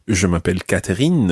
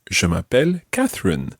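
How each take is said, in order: First: Catherine said the French way; French accent. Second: Said in the usual way. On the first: Shown as a demonstration. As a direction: make Catherine French, with a French r and a clear last syllable. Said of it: "as opposed to". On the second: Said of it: "stick with your own name".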